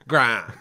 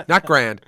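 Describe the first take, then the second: First: "grand" with a broad, long mid-Atlantic ah; "grand" said grandly, broad ah. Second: "grand" with a flat American a; "grand" with a short, flat a; wrong grand. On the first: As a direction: stretch "grand" like an old film star. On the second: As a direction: says "grand" the plain American way. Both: Shown as a demonstration.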